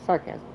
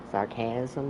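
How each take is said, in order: First: Said in the usual way. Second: Sarcasm said as a puzzled question, pitch rising at the end; questioning rise. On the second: Shown as a demonstration. Player catching himself mid-commentary, a rising unsure sarcasm. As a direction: ask the word sarcasm as if unsure of it. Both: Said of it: "Why did I say it like that?".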